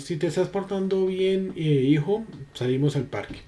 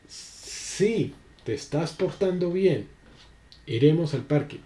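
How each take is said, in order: First: Put-on parent to child. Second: Gentle promise. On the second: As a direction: coax a child calmly. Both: Shown as a demonstration. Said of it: "Son dos diferentes acentos".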